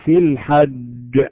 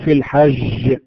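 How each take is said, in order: First: The jeem is a hard, stopped sound. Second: The jeem is soft and close to sh. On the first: The speaker calls it right. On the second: The speaker calls it wrong.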